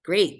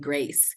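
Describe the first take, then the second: First: The word ends with a K sound. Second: The word ends with an S sound. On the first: "How come the C isn't making a K sound?" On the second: "the C sometimes makes a S sound"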